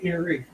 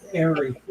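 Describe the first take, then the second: First: The name begins with an 'ear' sound. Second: The name begins with an 'air' sound. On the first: The speaker calls it wrong. "I've been calling you Erie forever" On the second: The speaker calls it right. "It's Airy"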